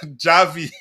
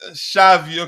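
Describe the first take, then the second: First: The name begins with a J sound. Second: The name begins with an SH sound. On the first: The speaker calls it wrong. "it's not pronounced Javi" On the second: The speaker calls it right. "It's pronounced uh, it's Shavi"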